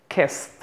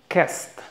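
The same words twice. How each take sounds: Both takes have the same delivery.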